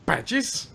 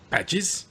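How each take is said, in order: First: Squeaky high incredulous echo; higher incredulous. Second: Rising question, pitched up; mock incredulous. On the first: Retold or imitated. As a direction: push the pitch way up in disbelief. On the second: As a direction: repeat it as a startled question. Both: Quoting the movie line.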